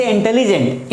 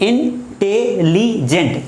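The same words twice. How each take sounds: First: Said in the usual way. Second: intelligent chopped into four slow beats, in-te-li-jent; syllable by syllable. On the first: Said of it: "जैसे intelligent". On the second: Shown as a demonstration. Teacher showing four jolts in the word, intelligent in separate syllables. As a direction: break intelligent into in, te, li, jent with gaps. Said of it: "झटके लग रहे हैं बीच में".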